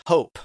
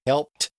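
First: "hope" for helped, with long O and no L; granddad's dialect form. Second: Said in the usual way. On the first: Retold or imitated. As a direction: say "hope" where helped is meant. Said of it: "he would say hope". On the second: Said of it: "Instead of saying helped".

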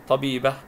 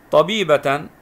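First: طبيبة read "tabiibah" with silent t; pausal ending. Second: طبيبة read "tabiibatan", louder; tanween ending. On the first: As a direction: close طبيبة on "ah", no tanween. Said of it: "والتاء المربوطة نسكن". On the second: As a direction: sound the final "tan" of طبيبة. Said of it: "وتكون عليها تنوين الفتح". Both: Shown as a demonstration.

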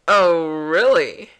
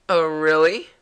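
First: Loud, slow, drawn-out "Oh, really"; exaggerated disbelief. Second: Loud questioning lift at the end; doubting. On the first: Repeating the girl's reply to the hero, slow hammed-up disbelief. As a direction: stretch it out and let the tune fall. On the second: Acted. Voicing the girl's reply to the hero, loud doubting question. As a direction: challenge it with a rising "really". First take of game character's reply.

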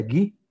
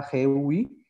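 First: "gui" con g de gato; G dura, U muda. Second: "gui" pronunciado güi, con sonido gw; U sonora. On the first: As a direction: pronunciar "gui" sin sonar la u. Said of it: "la G I se pronuncia gui". ("gui" como g de gato más i) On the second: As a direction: hacer sonar la u de "gui". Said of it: "la sílaba G U I se pronuncia". ("gui" como si llevara diéresis) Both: Shown as a demonstration.

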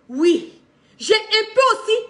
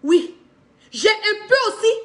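Both takes have the same delivery.

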